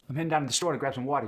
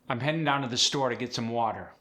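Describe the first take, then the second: First: It is said fast in a Philly accent. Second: It is said in standard American English.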